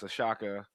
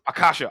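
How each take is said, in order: First: The second syllable of the name is 'sha'. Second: The second syllable of the name is 'ka'. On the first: The speaker calls it wrong. "I did I pronounce it wrong?" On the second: The speaker calls it right. "Thank you"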